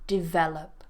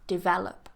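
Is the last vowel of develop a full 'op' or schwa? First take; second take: schwa; schwa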